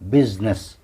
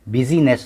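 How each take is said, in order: First: No vowel is sounded in the middle. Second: An extra vowel is sounded in the middle. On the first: The speaker calls it right. "बिजनेस में आई silence होगा" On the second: The speaker calls it wrong. "बिजीनेस नहीं"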